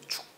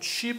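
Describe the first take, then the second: First: The syllable ends with a k sound. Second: The syllable ends with a wi glide. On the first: The speaker calls it right. "축 발음도 나고" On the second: The speaker calls it wrong. "취 발음도 나고"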